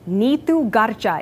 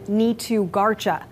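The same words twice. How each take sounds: First: The name is said with Punjabi pronunciation. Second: The name is said with English pronunciation. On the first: This is the original form of the name. The speaker calls it right. "the authentic Punjabi pronunciation that my parents gave me" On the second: This is an adapted form made to fit in. The speaker calls it wrong. "the latter anglicized version"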